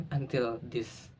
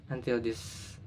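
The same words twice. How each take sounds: The two takes are said the same way.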